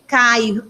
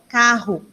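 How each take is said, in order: First: The R is replaced by an i sound. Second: The R sound is clearly pronounced. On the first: The speaker calls it wrong. "Não falar" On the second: The speaker calls it right. "tem que já estar tá pronunciando o carro certo"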